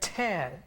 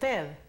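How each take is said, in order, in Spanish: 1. La T se libera con un soplo de aire fuerte. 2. La T es suave, sin soplo de aire. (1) "sonido explosivo de la T" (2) "la T con el sonido que tiene en español"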